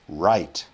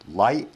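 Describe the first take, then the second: First: The word begins with an English R sound. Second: The word begins with an L sound. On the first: The speaker calls it right. "You want r. Let's start again" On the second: The speaker calls it wrong. "if you're saying light"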